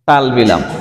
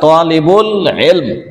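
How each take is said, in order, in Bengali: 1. বাক্যাংশটি জড়িয়ে talbilam বলা হয়। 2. বাক্যাংশটি পুরোটা talibul ilm বলা হয়। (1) "শব্দটা উচ্চারণ সুন্দর করতে না পারার কারণে" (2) "আসলে তালবিলাম না"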